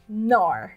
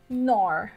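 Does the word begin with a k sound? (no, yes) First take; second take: no; no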